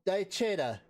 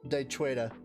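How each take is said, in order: First: The name is said without a W sound. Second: The name is said with a W sound. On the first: "the W is silent" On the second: "I just like saying it like that"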